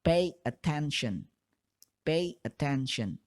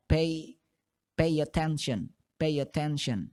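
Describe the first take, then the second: First: Slow, separated. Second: Linked form. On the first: Teacher demonstrates the separated form. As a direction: pay attention said slowly with a gap between pay and attention. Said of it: "diucapkannya lambat atau secara terpisah". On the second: Teacher demonstrates the connected form. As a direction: pay attention run together as peiatenson. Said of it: "kalau kalian ucapan dengan cepat". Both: Shown as a demonstration.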